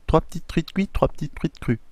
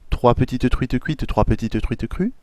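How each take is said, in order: First: Some syllables are shortened or run together. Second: Every syllable is pronounced fully and distinctly. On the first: "de manière un peu plus raccourcie" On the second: "en euh, détaillant bien chaque syllabe"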